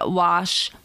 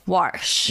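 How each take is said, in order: First: The word is said without an r sound. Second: The word is said with an r sound. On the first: The speaker calls it right. "I used to say wash" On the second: The speaker calls it wrong.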